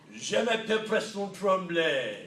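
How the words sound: It is said with exaggerated French flair.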